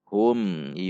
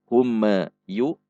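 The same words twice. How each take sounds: First: The m is short and clear. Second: The m bounces off with an extra echo. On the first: The speaker calls it right. "Namun hum, yu" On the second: The speaker calls it wrong.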